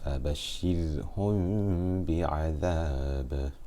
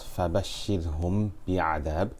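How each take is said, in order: First: The m is hidden, lips barely touching, nasalized. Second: The m is said with lips fully closed. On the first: The speaker calls it right. "as if the meme is hidden between my lips, with ghunna for two harakat" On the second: The speaker calls it wrong. "So it will not be read as"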